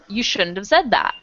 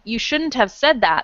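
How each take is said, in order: First: The word 'have' is reduced and linked to 'shouldn't'. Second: The word 'have' is said fully and clearly. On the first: "they may just say" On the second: "Instead of saying"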